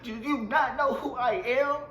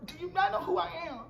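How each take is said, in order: First: Higher, slow, hammed-up diva; slowed, haughty do you know who I am; mock diva outrage. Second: Much higher and fast, hammed-up diva squeal; quick, squeaky do you know who I am; shrill mock outrage. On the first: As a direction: drag out the entitled question like a star. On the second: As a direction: fire it off like an offended celebrity. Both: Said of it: "I was like".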